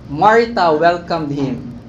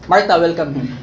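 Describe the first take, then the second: First: It is said slowly and calmly. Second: It is said quickly and hurriedly.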